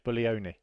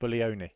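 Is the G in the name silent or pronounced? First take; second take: silent; silent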